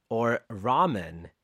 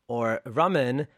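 First: Raman said "RAH-mun", drawn out; open-a pronunciation. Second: Raman said "RUH-mun"; short-u pronunciation. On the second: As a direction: say Raman with a short first vowel, as in "run". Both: Shown as a demonstration. Lists the guest's names two ways.

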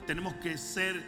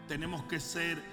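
Both takes have the same delivery.

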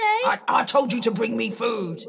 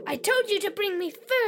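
First: Fast, loud, irritated order. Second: Fast, cheeky echo of the order; copycat mimicry. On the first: Acted. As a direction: snap the order impatiently. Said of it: "Stop that". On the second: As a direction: parrot it back cheekily. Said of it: "Stop repeating everything I say".

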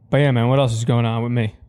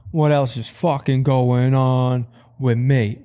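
First: Said in the usual way. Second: Slow, drawn-out musing; slow, self-amused drawl. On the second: Shown as a demonstration. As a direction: stretch each word out, pondering aloud. Slowed, drawn-out repeat.

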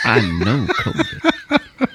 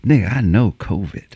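First: Slow, low, through a laugh; buddy insisting, laughing. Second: Low, stubborn buddy voice; buddy insisting. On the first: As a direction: drag it out slowly while laughing. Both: Retold or imitated.

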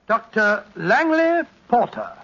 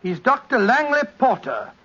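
First: Slow, measured announcement of a guest; formal introduction. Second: Said in the usual way. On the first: Real, not acted. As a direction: announce the name slowly, as a handover. Formally hands over to the guest.

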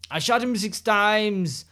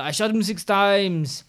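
First: Slow, slightly higher movie-villain line; quoting a movie line. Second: Slow, slightly higher quote; quoting a movie line. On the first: Reciting her favorite horror quote to a friend, slow and dramatic. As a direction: deliver it like a slasher film quote. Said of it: "To refresh". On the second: Listing top five horror quotes for her friend, slow and dramatic. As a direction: savor the line like a horror fan. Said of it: "there is". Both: Retold or imitated.

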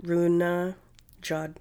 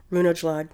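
First: "Runajad" said slowly with the J sounded, as "Runa-jad"; unsure pronunciation. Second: "Runelad" said with the J silent, spoken as "Rune-lad"; unsure pronunciation. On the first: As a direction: slowly try out "Runajad" with a spoken J. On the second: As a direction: tentatively say "Runelad" with no J sound. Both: Shown as a demonstration. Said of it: "I don't know if I'm pronouncing it properly".

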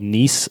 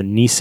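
First: Nisse as one syllable, "neess"; tentative pronunciation. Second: Nisse in two syllables, "nee-seh"; tentative pronunciation. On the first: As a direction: say Nisse with the final vowel dropped. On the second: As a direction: sound the final e in Nisse. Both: Shown as a demonstration. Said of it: "I'm not saying that one right".

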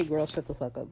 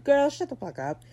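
First: Said in the usual way. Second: High-pitched mock outburst; sassy retold retort. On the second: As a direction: throw it out high, playing the fed-up boss. Acts out boss's retort, then corrects herself.

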